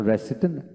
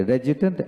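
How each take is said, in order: First: "রেসিডেন্ট" with an s, re-si-tent; "রেসিডেন্ট" as re-SI-dent, presented as British; claimed British pronunciation. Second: "রেজিডেন্ট" with a j, re-ji-dent; "রেজিডেন্ট" as re-JI-dent, presented as American; claimed American pronunciation. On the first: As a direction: say "রেসিডেন্ট" with a hissed s in the middle. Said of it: "British উচ্চারণ". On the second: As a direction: say "রেজিডেন্ট" voiced in the middle. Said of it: "American হচ্ছেন". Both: Shown as a demonstration.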